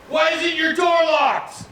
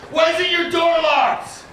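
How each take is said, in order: First: Very high, slow shouted demand; mock cop shout. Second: Very high, slow shouted demand through laughter; mock cop shout again. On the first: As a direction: bark it like an angry armed cop. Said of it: "the one cop goes". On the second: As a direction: yell it like the annoyed cop, laughing. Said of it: "And then he goes".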